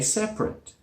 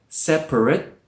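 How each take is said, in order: First: It is said with two syllables. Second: It is said with three syllables. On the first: "most people say separate" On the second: "This one here looks like separate"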